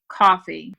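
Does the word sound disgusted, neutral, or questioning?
neutral. It is said flatly, as a plain statement. The speaker wants coffee.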